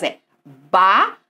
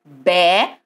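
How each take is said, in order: First: Bala broken apart as ba-la; split into syllables. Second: Bela spoken distinctly, with an open e; clearly spoken word. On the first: Teacher splits bala into syllables. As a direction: divide bala into ba and la. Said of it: "Se eu for dividir em sílabas". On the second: Teacher contrasts bela with bala. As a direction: say bela slowly to set it against bala. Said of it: "eu vou pôr a palavra bela". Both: Shown as a demonstration.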